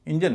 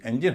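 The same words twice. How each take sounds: First: "इंजन" opened with a short "in" sound; wrong common pronunciation. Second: "इंजन" opened with an "en" sound; correct pronunciation. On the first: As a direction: say "इंजन" as in-jan. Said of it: "इंजन नहीं होता". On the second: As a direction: say "इंजन" as en-jin. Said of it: "इसका उच्चारण भी इंजन होता है". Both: Shown as a demonstration.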